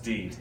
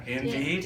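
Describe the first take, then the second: First: "deed" as one syllable; clipped-front "indeed", only "deed" left; first syllable dropped. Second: "indeed" with both syllables; full two-syllable "indeed"; wrong form shown. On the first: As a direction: say just "deed", no "in" before it. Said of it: "it's just deed". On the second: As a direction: say "indeed" with a clear "in". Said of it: "Okay, it's not indeed". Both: Shown as a demonstration.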